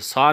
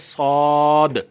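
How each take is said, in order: First: The word ends without its final consonant. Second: The word is said fully with its final consonant. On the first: The speaker calls it wrong. "सौ नहीं" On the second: The speaker calls it right. "बल्कि सौद पूरा पढ़ाइए"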